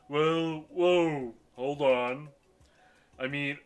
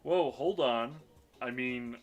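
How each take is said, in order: First: It is said in a put-on character voice. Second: It is said in the speaker's own voice.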